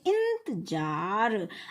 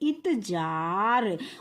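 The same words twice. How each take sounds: First: The first syllable is said with a nasal sound. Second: The first syllable is said without a nasal sound. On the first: "जब इसके ऊपर हमने बिंदी लगा दिया तो हम क्या बोलेंगे?" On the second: "पहले हम इसको क्या बोल लेते थे?"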